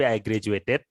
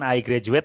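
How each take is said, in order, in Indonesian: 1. Suku kata -ed di akhir diucapkan dengan jelas. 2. Suku kata -ed di akhir tidak diucapkan. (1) "tapi I graduated"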